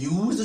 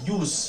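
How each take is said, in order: First: The word ends with a z sound. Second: The word ends with an s sound. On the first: The word is used as a verb. "जब last में जेड का sound होता है" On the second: The word is used as a noun. "लास्ट में अगर एस का sound निकलेगा"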